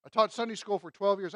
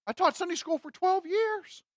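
First: Said in the usual way. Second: Imitating a churchgoer in a much higher voice; mock self-justification. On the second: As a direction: offer it as proof, pitched way up. Imitates the answer of someone questioned.

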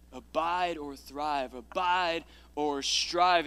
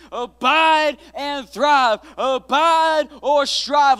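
First: Slow, quiet title trial. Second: Loud, slow, high title proclamation; preached titles. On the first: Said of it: "trying title options". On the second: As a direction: boom the title out like a revival preacher. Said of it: "title declared at full force". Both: Shown as a demonstration.

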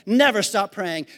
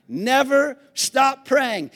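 First: Said in the usual way. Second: NEVER stressed, stop praying drawn out slowly; slow and deliberate: Never stop praying; preached slowly. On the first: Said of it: "Always be joyful". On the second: Shown as a demonstration. Preacher repeating the verse to the congregation, slow and stressed. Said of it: "That's a weird sentence".

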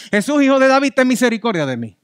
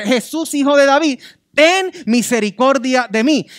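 First: Raised plea, less forceful; beggar's first call to Jesus; first cry for mercy. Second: Loud, high desperate cry; shouting louder. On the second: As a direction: shout over the crowd for mercy. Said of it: "A gritar más fuerte". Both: Acted.

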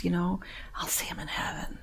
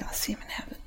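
First: Hushed, unvoiced hope; whispered prayer. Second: Unvoiced, even softer; whispered repetition. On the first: Praying for the dead resident, whispered hope. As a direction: whisper it to the Lord. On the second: Repeating her hope to the church, faint whisper. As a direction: let it fade to a breath. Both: Real, not acted.

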